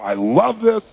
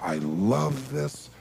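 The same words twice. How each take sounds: First: It is said fast. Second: It is said slowly.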